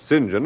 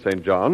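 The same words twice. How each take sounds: First: The name is pronounced the British way. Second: The name is pronounced the ordinary, non-British way.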